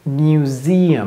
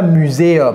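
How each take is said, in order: First: The word starts with 'mu' as in music. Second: The word is said with a French pronunciation. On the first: The speaker calls it right. "c'est mu comme music" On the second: The speaker calls it wrong. "Ne dites pas muséum"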